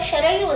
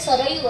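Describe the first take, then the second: First: The name begins with an sh sound. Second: The name begins with an s sound. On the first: This is a corrupted form of the name. The speaker calls it wrong. "आपण त्याचा अपभ्रंश बऱ्याचदा शरयू असा करतो" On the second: This is the true form of the name. The speaker calls it right. "खरा शब्द ... सरयू असाच त्यांनी उच्चार केलेला आहे"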